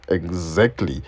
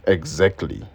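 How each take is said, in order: Both takes have the same delivery.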